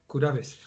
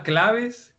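First: "curaves" with a tapped r replacing the l; softer, lower "curaves" with Japanese syllables; Japanised pronunciation. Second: Said in the usual way. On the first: Shown as a demonstration. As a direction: break the cluster into "ku-ra-ves".

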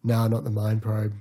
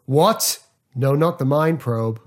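First: Flat, dismissive shrug of a line; can't be bothered anymore; bored. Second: Shocked. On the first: Tired actor wanting to go home, bored. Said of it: "he gets bored halfway through saying it". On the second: Actor shocked at the threat of the mind probe. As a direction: recoil in alarm at the threat. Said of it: "one of my favourite line deliveries". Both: Retold or imitated.

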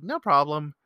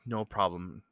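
First: Said in the usual way. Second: Soft, low, under the breath; mouthed back. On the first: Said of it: "squinched face smile and shruggy shoulders". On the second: Retold or imitated. Man answering a mom's thanks, mouthed softly. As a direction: imitate a discreetly mouthed reply. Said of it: "I mouthed it back to her".

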